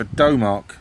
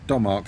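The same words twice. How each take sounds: First: "Domark" with first syllable like dough; long O in Domark. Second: "Domark" with first syllable like Dom; short O in Domark. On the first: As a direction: say "Domark" as DOH-mark. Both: Shown as a demonstration. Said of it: "however you say it".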